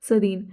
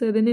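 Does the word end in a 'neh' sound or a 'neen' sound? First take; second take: neen; neh. First: The word ends with a long 'een' sound. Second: The word ends with a short 'neh' sound. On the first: The speaker calls it right. "Pronounce सही करिए" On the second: The speaker calls it wrong. "सरेने नहीं है"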